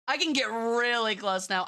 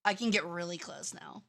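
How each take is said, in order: First: Said in the usual way. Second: Quiet take. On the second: Shown as a demonstration.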